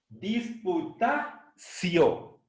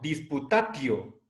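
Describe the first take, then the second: First: The syllable before the final o sounds like see. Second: The syllable before the final o sounds like tee. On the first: The speaker calls it right. "sino disputacio" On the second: The speaker calls it wrong. "no leamos esta palabra como disputatio"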